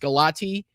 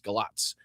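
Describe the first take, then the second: First: The name ends with a 'tee' sound. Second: The name ends with a 'ts' sound. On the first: The speaker calls it wrong. "I know that it looks like it's Galati" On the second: The speaker calls it right. "the T I at the end is the T S"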